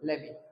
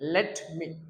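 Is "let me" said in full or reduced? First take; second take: reduced; full. First: The two words blend into one short word. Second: Both words are pronounced fully and separately.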